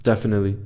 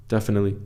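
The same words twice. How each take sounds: The two takes are said the same way.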